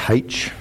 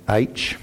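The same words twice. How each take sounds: First: H said "haitch", with a breathed h at the start; Australian H. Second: H said "aitch", with no h sound at the start; Kiwi-accent H. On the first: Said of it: "Australians say H". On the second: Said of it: "I'll say it in the Kiwi accent". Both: Shown as a demonstration.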